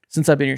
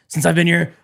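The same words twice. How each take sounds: First: It is said in a plain, natural voice. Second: It is said in a raspy, put-on voice.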